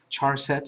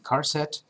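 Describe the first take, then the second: First: The word begins with a ch sound. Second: The word begins with a hard k sound. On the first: The speaker calls it wrong. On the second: The speaker calls it right.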